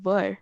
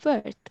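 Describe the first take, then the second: First: The final T sound is silent. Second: The final T sound is pronounced. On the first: The speaker calls it right. "I'm not pronouncing T" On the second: The speaker calls it wrong. "I would have just said worth"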